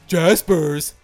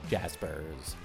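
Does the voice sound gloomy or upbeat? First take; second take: upbeat; gloomy. First: It is said in a bright, upbeat voice. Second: It is said in a low, gloomy voice. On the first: The speaker calls it right. "now it sounds like a good thing" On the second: The speaker calls it wrong. "That was a little under the weather there"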